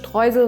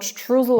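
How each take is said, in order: First: The word is pronounced the German way. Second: The word is pronounced in an anglicized way. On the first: The speaker calls it right. "This is how we pronounce it in German" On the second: The speaker calls it wrong. "not Streusel or whatsoever"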